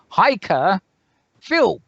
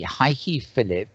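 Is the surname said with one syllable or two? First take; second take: one; two. First: The surname is said with one syllable. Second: The surname is said with two syllables. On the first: The speaker calls it right. "the pronunciation is Heike Philp" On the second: The speaker calls it wrong. "I have called this lady Heike Phillip for an eternity"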